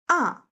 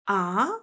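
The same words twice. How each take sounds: First: The pitch falls sharply, sounding angry. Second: It sounds like a surprised question. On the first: "no, angry sound. / falling down sharply" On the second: "what? Surprising sound"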